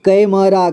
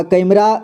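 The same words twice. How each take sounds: First: कैमरा split as कै, म, रा; syllable by syllable. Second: Said in the usual way. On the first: Shown as a demonstration. Teacher showing learners कैमरा, sounded out in parts. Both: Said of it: "इसे पढ़ेंगे".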